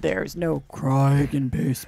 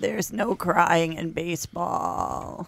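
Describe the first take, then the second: First: It is said in a lower, gravelly voice. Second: It is said in a higher, fried voice.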